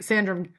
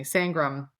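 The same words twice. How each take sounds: First: Sandram, with a clear d in the middle instead of ng; slip of the tongue. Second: Sangram, with ng and a hard g in the middle; corrected name. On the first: Host stumbles on the name and says Sandram. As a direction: say Sandram with an n-d sound, the name botched. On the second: Fixing the botched name with a corrected Sangram. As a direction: say Sangram with the ng sound, now correct. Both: Real, not acted. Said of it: "excuse me".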